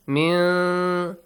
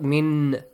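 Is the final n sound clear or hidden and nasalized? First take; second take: nasalized; clear. First: The n is hidden as a nasal sound. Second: The n is pronounced clearly and fully. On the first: The speaker calls it right. "Hide the sound of noon and produce a nasal sound" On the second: The speaker calls it wrong. "Not مِنْ. Clearly do not say the noon sound"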